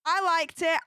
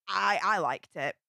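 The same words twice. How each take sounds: First: I liked it with I punched louder; firm personal emphasis on I; stress on I. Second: Said in the usual way. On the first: Real, not acted. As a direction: lean on the word I, for herself.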